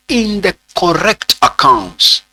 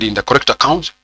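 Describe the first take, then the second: First: "in the correct accounts" spaced out deliberately; emphatic dictation. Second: Said in the usual way. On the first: Real, not acted. Teacher dictating where a transaction is recorded, deliberate emphatic dictation. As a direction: stretch "in the correct accounts" for note-takers. Dictating the key words of definition.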